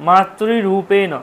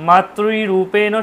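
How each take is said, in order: No difference in how they are said.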